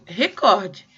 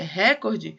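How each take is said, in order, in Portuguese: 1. A sílaba tônica está na segunda sílaba. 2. A sílaba tônica está na primeira sílaba. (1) "Porque em português, na verdade, eu tenho recorde" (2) "E se fosse é, recorde, é, é uma proparoxítona"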